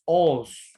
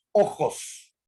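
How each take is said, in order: First: "os" for ojos, j and final s dropped; coastal ojos. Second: "ojos" with a guttural j and a full final s; highland ojos. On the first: Teacher shows the class the coastal ojos, just os. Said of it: "en vez de ojos". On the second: Teacher shows the class the highland ojos, s kept. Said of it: "la pronunciación correcta de la letra S al final". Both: Shown as a demonstration.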